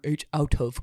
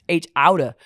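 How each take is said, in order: First: "Out of" is said as two full words. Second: "Out of" is squeezed into one word, "outta". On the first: The speaker calls it wrong. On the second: The speaker calls it right. "It is H outa"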